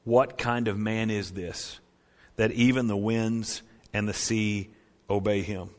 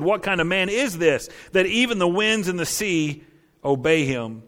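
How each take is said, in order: First: Awed hush. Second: Amazed. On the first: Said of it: "the disciples responded correctly". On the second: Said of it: "The men were amazed and said". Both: Retold or imitated.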